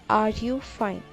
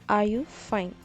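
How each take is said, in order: No difference in how they are said.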